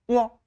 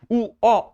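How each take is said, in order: First: The 우 is shortened into a quick glide. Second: The 우 is a full separate vowel. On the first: The speaker calls it right. "우를 작게 하는 거지" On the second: The speaker calls it wrong. "우어가 아니야"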